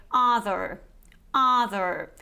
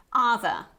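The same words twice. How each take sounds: First: Other in an American accent, R sounded at the end; American variety. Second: Other in a British accent, final R silent; British variety. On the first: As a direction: say other the American way, "UH-ther" with final R. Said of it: "in the American variety". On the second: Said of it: "we don't pronounce this R at the end". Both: Shown as a demonstration.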